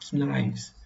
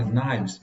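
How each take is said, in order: First: The initial k is pronounced. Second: The initial k is silent. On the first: The speaker calls it wrong. "o padrão do português acaba fazendo ele pronunciar knives" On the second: The speaker calls it right. "a pronúncia correta, o K é mudo"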